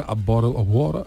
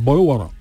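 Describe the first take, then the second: First: Rough imitation of British "A bottle of water"; British pronunciation. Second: "Bottle water" with American flapped Ts; rough imitation of American "Bottle water"; American pronunciation. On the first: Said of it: "en británico y en australiano". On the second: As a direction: run "Bottle water" together, Ts softened to taps. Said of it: "los americanos decían". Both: Shown as a demonstration.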